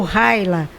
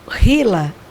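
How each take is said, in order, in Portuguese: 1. Pronuncia-se do jeito do inglês americano. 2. Pronuncia-se do jeito do português brasileiro.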